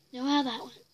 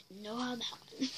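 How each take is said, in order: First: Said in the usual way. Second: Quiet wry repeat; softer echo. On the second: Real, not acted.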